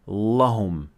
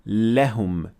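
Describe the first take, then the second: First: The lam is heavy, with a full mouth. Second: The lam is light, with an empty mouth. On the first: The speaker calls it wrong. "not لهم" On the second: The speaker calls it right. "we say لهم"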